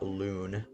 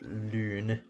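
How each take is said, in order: First: The vowel is a plain back oo sound. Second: The vowel is a front rounded ü sound. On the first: The speaker calls it wrong. "not Loon" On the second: The speaker calls it right. "it's pronounced Lune, ... because it's got an umlaut on the U"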